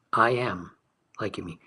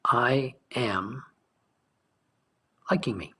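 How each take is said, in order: First: Said in the usual way. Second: "I am" breathed almost unvoiced, then "liking me"; hushed affirmation. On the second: Shown as a demonstration. Teacher modelling the inner statement, hushed. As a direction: whisper "I am", let "liking me" fall.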